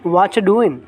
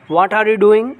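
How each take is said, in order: First: The word 'are' is dropped from the phrase. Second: Every word, including 'are', is fully pronounced.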